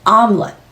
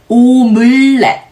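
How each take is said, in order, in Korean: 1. 두 음절로 발음하고, 끝을 툭 끊습니다. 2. 세 음절로 발음합니다. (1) "공기를 툭 끊어주셔야 됩니다" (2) "한국에서는 음절을 추가하는 게 되는데요"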